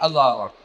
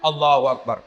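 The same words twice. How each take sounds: First: It is said sleepily, with low energy. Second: It is said with excessive, loud energy.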